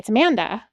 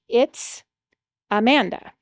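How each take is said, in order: First: It is said fast and run together. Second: It is said slowly and clearly.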